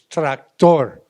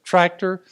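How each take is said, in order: First: The stress is on the last syllable. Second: The stress is on the first syllable. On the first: "it's tractor" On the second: "with the emphasis on the first half of the word"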